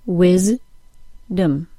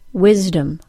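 First: The word is split into separate syllables. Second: The word is said as one smooth unit. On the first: "then I'll break it into syllables" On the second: "I'll say the word as a whole unit first"

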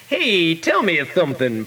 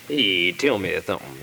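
First: The voice is pitched at its usual height. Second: The voice is pitched noticeably lower and deeper.

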